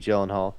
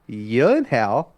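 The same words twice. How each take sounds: First: The surname has its familiar, widely used pronunciation. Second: The surname has a less familiar, different pronunciation. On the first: This is how most people say the name. The speaker calls it wrong. "everybody calls him Jake Gyllenhaal" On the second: This is how the family says its own name. The speaker calls it right. "their last name is actually pronounced Gyllenhaal"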